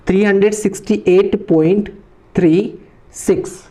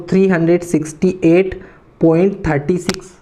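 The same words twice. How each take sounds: First: Raised pitch, space out "थ्री" and "सिक्स"; digit-by-digit reading. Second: "थर्टी सिक्स" joined as one number after the point; wrong reading. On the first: Teacher showing the correct way, digit by digit. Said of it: "point के पीछे का digit है इसको one one पढ़ना है". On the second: Teacher showing students a mistake, wrong reading. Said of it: "ये बिल्कुल गलत तरीका है". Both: Shown as a demonstration.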